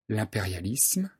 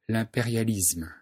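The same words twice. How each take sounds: First: The ending is said with an s sound. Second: The ending is said with a z sound. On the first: "La forme correcte est isme" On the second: "Notez qu'on prononce parfois isme"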